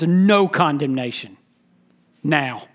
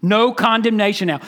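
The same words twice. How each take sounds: First: A low, deliberate reading of "no condemnation now" with "no" stressed. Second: Firm declaration with the stress on "No"; emphatic no. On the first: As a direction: read "no condemnation now" low and weighty, leaning on "no". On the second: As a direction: hit "No" hard in "No condemnation now". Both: Shown as a demonstration. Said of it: "the no is emphatic".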